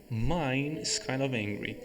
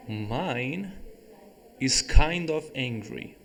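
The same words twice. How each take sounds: First: Said in the usual way. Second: "Mine" lifted at the start, "kind" stressed, said slowly. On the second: Shown as a demonstration. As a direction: lean on "Mine", slow and clear. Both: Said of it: "Veja que eu usei o mine".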